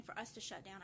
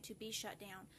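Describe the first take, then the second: First: Said in the usual way. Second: The word be singled out, shut down said lightly; stress on BE. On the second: Shown as a demonstration. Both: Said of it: "I'm not saying for us to shut down".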